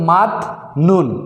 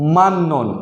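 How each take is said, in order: First: The first syllable ends with a t sound. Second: The first syllable ends with an n sound. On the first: The speaker calls it wrong. "আমরা যদি নিয়মটা না জানি তাহলে হবে মাত নুন" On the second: The speaker calls it right. "আমাদেরকে পড়তে হবে মান নুন"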